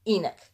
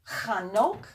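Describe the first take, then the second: First: The name is pronounced the English way. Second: The name is pronounced the Hebrew way. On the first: This is the form English speakers usually use. "as we usually say it" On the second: This is the form found in the original text. "not the way you're going to find it in the Bible"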